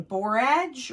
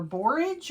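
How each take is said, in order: First: Borage with a full second vowel, bor-AHJ; alternative pronunciation. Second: Borage with a reduced ending, BOR-idge; alternative pronunciation. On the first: Gardener unsure of the plant's name, full-vowel pronunciation of borage. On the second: Gardener offering the other option, borage said as BOR-idge. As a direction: say borage to rhyme with porridge. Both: Shown as a demonstration. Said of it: "I'm not sure how you pronounce".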